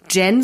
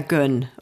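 First: The vowel sounds like German 'e'. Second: The vowel sounds like German 'ö'. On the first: The speaker calls it wrong. "Ich würde Gen sagen" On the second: The speaker calls it right. "Ach ja"

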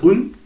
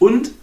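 First: The final consonant is dropped. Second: The final consonant is clearly pronounced. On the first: "dass ich ganz viel D und T nicht ausspreche" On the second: "ist nicht und"

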